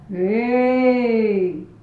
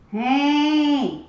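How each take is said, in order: First: It resonates deep in the chest. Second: It resonates through the nose and mask.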